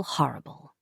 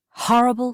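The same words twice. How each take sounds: First: "horrible" dropped low and much softer; fading horrible. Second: "horrible" said higher and stressed; emphatic horrible. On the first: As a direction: let "horrible" sink away. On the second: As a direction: lean into "horrible". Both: Shown as a demonstration. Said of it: "It means not at all".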